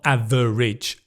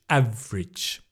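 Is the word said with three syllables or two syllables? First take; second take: three syllables; two syllables. First: The word is said with three full syllables. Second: The middle vowel drops, giving two syllables. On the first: The speaker calls it wrong. "Not average" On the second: The speaker calls it right. "The vr again"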